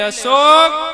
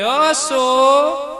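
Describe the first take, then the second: First: The name is called in a harsher tone. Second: The name is called in a soft, sweet tone.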